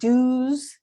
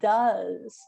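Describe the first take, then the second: First: The vowel sounds like the vowel in 'do'. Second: The vowel sounds like the vowel in 'cup'. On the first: The speaker calls it wrong. "instead of do's, D O S" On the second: The speaker calls it right. "we say does. So the pronunciation changes"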